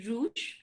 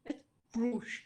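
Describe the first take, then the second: First: "rouge" as the counterexample, without the curled r; wrong pronunciation. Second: "rouge" with the tongue curled on the r, ending in sh. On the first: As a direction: say "rouge" with no curled-tongue r at the start. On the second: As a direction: curl the r at the start of "rouge". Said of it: "The tongue curls up". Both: Shown as a demonstration.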